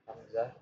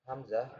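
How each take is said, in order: Both takes have the same delivery.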